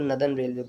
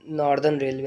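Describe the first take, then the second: First: Northern is said without r sounds, like na-dhan. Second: Northern is said with clear r sounds, like nor-dern. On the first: The speaker calls it right. "English में हम बोलती हैं कि इसको नदन railway बोला जाता है" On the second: The speaker calls it wrong. "इसको हम लोग बचपन में नॉर्दर्न नॉर्दर्न रेलवे ऐसे बोलते हैं"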